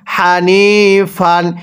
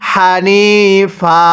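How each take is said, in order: First: The word ends with an n sound. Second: The word ends with a long a. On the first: The reading continues without stopping. "ফা আলিফ দুই জবর ফান" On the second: The reader stops at this word. "এখন যদি আমরা এখানে ওয়াকফ করি তাহলে হানি ফা"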